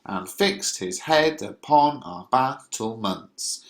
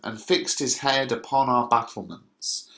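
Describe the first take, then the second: First: Slow beat, stressing "fixed", "head", "battlements" on every other syllable; stressed iambic beat. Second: Said in the usual way. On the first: Shown as a demonstration. Teacher shows students how to read "and fixed his head upon our battlements", exaggerated iambic stresses. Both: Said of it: "the way you would read this is".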